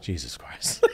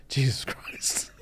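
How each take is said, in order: First: Quiet, low "Jesus Christ"; low muttered disbelief. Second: Hushed, drawn-out British exclamation; slow British disbelief, nearly whispered; Gordon Ramsay. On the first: Retelling Gordon Ramsay's shock at the chef, low disbelief. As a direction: drop it low, half-laughing. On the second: Imitating Gordon's shock at the chef, slow British hush. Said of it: "Gordon with his British thing". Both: Retold or imitated.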